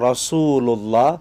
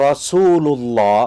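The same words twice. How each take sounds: Both takes have the same delivery.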